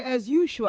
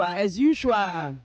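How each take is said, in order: First: Said in the usual way. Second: "as usual" stretched long and slow; slow drawn-out "as usual". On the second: Retold or imitated. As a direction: drag out "as usual" lazily. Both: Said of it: "Obi will say".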